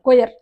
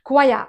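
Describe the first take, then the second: First: It begins with 'koy' and ends in 'r'. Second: It begins with 'kwai' and ends in 'uh'. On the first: The speaker calls it wrong. "కొయర్ అంటాం" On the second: The speaker calls it right. "అది కొయర్ కాదు"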